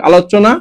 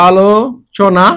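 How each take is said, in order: First: Said in the usual way. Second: আলোচনা stretched out very slowly, syllable by syllable; teacher stretching আলোচনা very slowly. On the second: Shown as a demonstration. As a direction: draw out আলোচনা slowly for the class.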